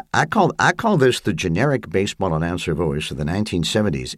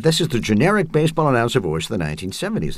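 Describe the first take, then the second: First: A light touch of a seventies baseball announcer; generic announcer voice. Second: Quick, higher seventies announcer read; Bob Costas. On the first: Shown as a demonstration. Answering the interviewer in his seventies announcer voice. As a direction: lean into the booth announcer sound. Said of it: "I'll answer you in the voice". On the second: Retold or imitated. Quoting the sportscaster's remark in a brisk announcer voice. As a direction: rattle it off like a smooth sportscaster. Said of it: "And he said".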